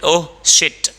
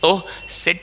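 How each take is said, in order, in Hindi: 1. दूसरे शब्द की शुरुआत एक sh ध्वनि से होती है। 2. दूसरे शब्द की शुरुआत एक सादी s ध्वनि से होती है।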